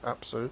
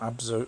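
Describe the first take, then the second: First: The middle consonants are voiceless, with an S sound. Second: The middle consonants are voiced, with a Z sound. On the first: The speaker calls it right. "Apsu with an S" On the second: The speaker calls it wrong. "not Abzu"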